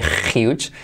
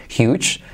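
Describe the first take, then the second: First: "huge" said with a Spanish jota; teacher mimicking a learner's huge; wrong huge. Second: "Huge" with a breathed h, hjuch; teacher modeling huge with aspirated h; correct huge. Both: Shown as a demonstration. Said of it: "nada de huge".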